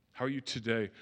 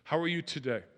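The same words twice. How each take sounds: First: A caring check-in with the weight on "are"; stress on ARE. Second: "How" lifted and leaned on, the rest falling away; a friendly greeting with the weight on "How"; stress on HOW. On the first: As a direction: ask gently, pressing on "are". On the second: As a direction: open warmly by hitting "How". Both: Shown as a demonstration. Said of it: "Here's what you can say".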